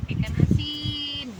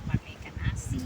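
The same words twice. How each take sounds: First: High-pitched, slower, speaking up; louder on request. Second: Barely voiced, breathy murmur; almost whispered. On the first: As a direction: repeat it so they can hear. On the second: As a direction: say it under your breath. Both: Real, not acted. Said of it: "Yang keras ngomongnya".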